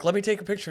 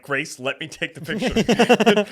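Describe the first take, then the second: First: Quick, higher-pitched retold request; retold eager request. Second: Higher, louder and drawn-out plea; retold exasperated insistence. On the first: Man asking to take a picture, retold eager request. Retelling first request for photo. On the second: Man begging Grace for the picture, retold exasperated insistence. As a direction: insist loudly, stretching the words, mock exasperation. Retelling insistent repeat after refusals.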